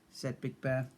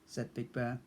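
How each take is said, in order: Both takes have the same delivery.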